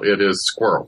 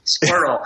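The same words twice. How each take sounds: First: It is squirrel with squirrel as one Southern syllable, skwerl; Alabama squirrel. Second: Squirrel whispered as one clipped syllable, skurl. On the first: Alabama speaker demonstrating her one-syllable squirrel. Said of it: "in Alabama, it is frequently one syllable". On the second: Colleague whispering squirrel as one syllable to test it. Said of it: "No, it isn't". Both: Shown as a demonstration.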